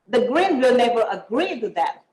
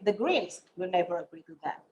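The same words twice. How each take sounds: First: The stress is on agree. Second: The stress is on Greens.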